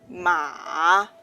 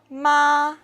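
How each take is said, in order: First: The pitch starts low and then rises. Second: The pitch stays high and level. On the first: "is a low rising tone" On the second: "is a high level tone"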